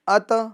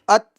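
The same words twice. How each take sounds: First: The final consonant bounces back with an echo. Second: The final consonant stops dead with no echo. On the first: The speaker calls it wrong. "आवाज इस तरह लोड करने आएगी, ... ये गलत है" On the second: The speaker calls it right. "आवाज मखरज में रुक गई।"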